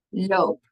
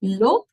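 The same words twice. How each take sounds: First: "loop" as one beat with a long O, like "lope"; held O in "loop"; one syllable, long o. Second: "Lop" as one short beat with a short O; loud, short "Lop"; one syllable, short o. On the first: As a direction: clap out "loop" in a single longer beat. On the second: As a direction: clap out "Lop" in a single punchy beat. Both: Shown as a demonstration. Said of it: "using syllables and the clapping".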